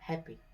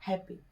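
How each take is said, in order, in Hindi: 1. बीच की p ध्वनि एक है और छोटी है। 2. बीच की p ध्वनि एक है और छोटी है।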